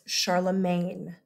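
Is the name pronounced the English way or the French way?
English. The name has an English pronunciation. The speaker calls it wrong. "the English pronunciation of his name"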